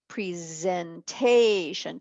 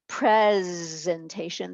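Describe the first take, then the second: First: The stress is on the third syllable. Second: The stress is on the first syllable. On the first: "te is accented" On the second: "the first syllable is accented"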